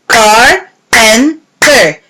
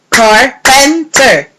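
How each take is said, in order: First: Slow, syllable by syllable: Car-pen-ter; clapped syllables. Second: Said in the usual way. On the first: Shown as a demonstration. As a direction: tap out Carpenter in three beats. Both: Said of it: "Yes, they are three".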